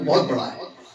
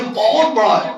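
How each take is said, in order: First: It is said flatly, without extra emphasis. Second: It is said with strong, stretched, exaggerated emphasis. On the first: The listener will not grasp how big it is. The speaker calls it wrong. "सीधे साधे लहजे में" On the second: It conveys that the thing is enormous. The speaker calls it right. "लहजा भी बदल गया"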